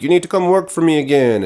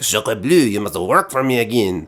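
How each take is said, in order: First: High, insistent mock villain demand; imitating a bossy captor, no accent; villain's demand. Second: Hammed-up French accent; mock French villainess accent. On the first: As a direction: put on a pushy villain boss, pitched up. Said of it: "and she's like". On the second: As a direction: redo the villain's demand as a cartoon French woman. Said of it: "or I guess she's French".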